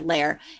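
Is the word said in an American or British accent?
American. It is said with an American r ending. "it's the L A I R"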